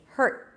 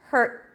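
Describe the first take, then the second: Both takes have the same delivery.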